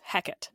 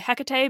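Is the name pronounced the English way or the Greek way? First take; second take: English; Greek. First: The name has its old English pronunciation. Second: The name has its Greek pronunciation. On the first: It names the character in the play. "this is how the English pronounce this name during Shakespeare's time" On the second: It names the goddess herself. "that is the Greek pronunciation of this goddess"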